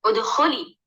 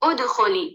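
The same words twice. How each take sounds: First: The stress is on the second syllable. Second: The stress is on the first syllable. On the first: The speaker calls it right. "खा पर हम लोगों ने क्या, थोड़ा सा जोर डाल दिया और सुनने में खा पर ज्यादा कुव्वत थी" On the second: The speaker calls it wrong. "ये जो गलत था, हम लोगों ने हर्फ अलिफ पर हम लोगों ने नबुल डाल दिया था"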